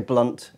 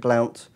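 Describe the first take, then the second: First: The vowel sounds like the one in 'cut'. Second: The vowel sounds like the one in 'out'. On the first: This is how the commentators say it. "All the commentators say Blunt" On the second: This is how the spelling suggests it is said. "It looks like it should be Blount"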